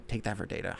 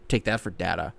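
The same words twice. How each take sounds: First: "data" with a long a, as in day; data as DAY-tuh. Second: "data" with a short a, as in cat; data as DAT-uh. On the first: Host trying the quote the other way, "data" said DAY-tuh. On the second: Host trying out the quote, "data" said DAT-uh. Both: Shown as a demonstration. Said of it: "Did he say data or data?".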